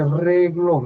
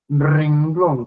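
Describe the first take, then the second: First: There is no n sound before the g. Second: There is an n sound before the g. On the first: The speaker calls it wrong. "no se dice reglón" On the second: The speaker calls it right. "La forma correcta es renglón, con N de nena"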